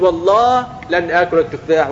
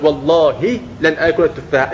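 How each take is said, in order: First: والله said wallah, the final h left silent. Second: والله said wallahi, with an i sounded after the h; final h with kasra. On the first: Teacher showing the oath with silent h, wallah. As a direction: end والله on a bare h, no vowel after it. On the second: Teacher showing the oath with kasra, wallahi. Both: Shown as a demonstration. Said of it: "بكسر الهاء وبسكون الهاء".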